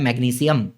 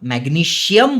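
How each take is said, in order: First: The ending is pronounced with an 's' sound. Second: The ending is pronounced with a 'sh' sound. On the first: This is the correct pronunciation. The speaker calls it right. "Correct correct pronunciation क्या होता है? ... सियम होता है, शियम नहीं होता है।" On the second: This is how people usually say it. The speaker calls it wrong. "वैसे ना मैग्नीशियम बोलते हैं अपन"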